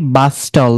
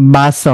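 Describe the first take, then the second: First: The t sound is pronounced. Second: The t sound is silent. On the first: The speaker calls it wrong. "বাস্টল না" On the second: The speaker calls it right.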